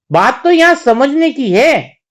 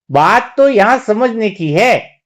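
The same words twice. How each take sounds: First: Said in the usual way. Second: Slower, measured, drawn-out words; slow emphatic repeat. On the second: Real, not acted. Preacher repeats the key point to listeners, slow and emphatic. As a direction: stretch it out so it sinks in.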